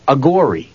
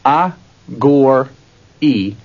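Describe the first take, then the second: First: Said in the usual way. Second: "a, gore, E" as three separate syllables with pauses. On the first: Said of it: "put them together". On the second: Shown as a demonstration. Teacher breaking category down for listeners, "a, gore, E" syllable by syllable. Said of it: "let's take those three syllables".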